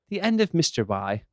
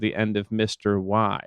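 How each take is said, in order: First: It is said in an English accent. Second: It is said in the speaker's ordinary accent.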